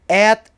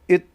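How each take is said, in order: First: The word has a full, clear vowel. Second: The word has a short reduced vowel. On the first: "At is strong form" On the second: "it is weak form"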